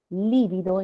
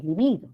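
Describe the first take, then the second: First: Lívido as LI-vi-do; first-syllable stress. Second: Libido as li-BI-do; middle-syllable stress. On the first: Teacher compares forms, lívido stressed on LI. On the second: Teacher compares forms, libido stressed on BI. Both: Shown as a demonstration. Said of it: "tildación optativa".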